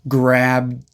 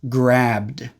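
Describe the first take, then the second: First: The final D sound is started but held back. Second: The final D sound is clearly released. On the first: "we stop the D sound there" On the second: "We go straight from the B sound into the D sound"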